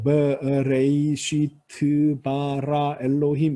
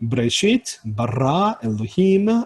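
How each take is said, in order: First: The words are read flatly without marked stress. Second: Each word's final syllable carries clear stress. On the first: The reader does not know where the accents fall. The speaker calls it wrong. "이렇게 이제 읽으면 아, 얘는 잘 못 읽는구나" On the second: The reader knows where the accents fall. The speaker calls it right. "액센트가 있는 것까지를 알면서 읽으면 아 얘는 되게 잘 읽는구나"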